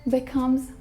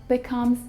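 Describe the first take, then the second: No difference in how they are said.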